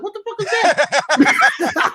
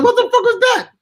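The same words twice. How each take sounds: First: High, slow startled cry; mock alarm at a sudden crash; startled what the. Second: Much higher, louder alarmed yell; louder startled cry. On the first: Retelling hearing his car window smashed, startled. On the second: Retold or imitated. Retelling the crash outside his trailer, alarmed yell. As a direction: shout it in shock.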